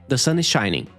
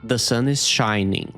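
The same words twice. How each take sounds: First: It is said fast. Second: It is said at normal speed.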